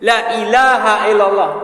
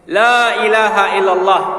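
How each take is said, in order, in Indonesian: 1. Vokal pertama dibaca pendek. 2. Vokal pertama dibaca panjang. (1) "dibaca la depannya itu cuma satu harkat saja" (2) "La-nya depan harus panjang"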